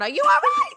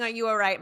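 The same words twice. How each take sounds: First: Very high, loud mock scream; hammed-up screaming mom; mother screaming. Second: Toned-down retold scream; mild imitation of a worried mother's call; mother screaming, milder. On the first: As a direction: shriek it from the background as a panicked mother. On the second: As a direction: repeat mom's cry only slightly raised. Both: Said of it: "my mother's screaming".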